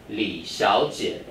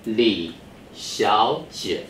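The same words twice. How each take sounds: First: Li Xiaojie with Xiaojie read as second then third tone, slowly; tone sandhi reading. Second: Li Xiaojie said slowly, each syllable drawn out for students to copy; teacher models Li Xiaojie slowly for the class to repeat; slow model reading. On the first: Teacher models the tone change in Li Xiaojie, slowly. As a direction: say Li Xiaojie with the tone change, Xiao rising. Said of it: "so it becomes second and third". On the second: Slow, careful model reading. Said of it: "Go ahead". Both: Shown as a demonstration.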